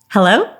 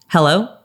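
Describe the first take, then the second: First: The hello is said with a happy, smiling tone. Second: The hello is said in a neutral tone. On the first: "Here's my happy hello" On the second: "this is my neutral hello"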